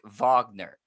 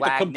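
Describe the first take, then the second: First: The name begins with a V sound. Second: The name begins with a W sound. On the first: The speaker calls it right. "you pronounce it with a V" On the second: The speaker calls it wrong. "It's spelled like"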